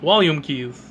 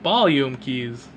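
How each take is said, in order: First: The first word starts with a W sound. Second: The first word starts with a B sound. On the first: "I've never heard anyone say" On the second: "mispronounce V's with B's"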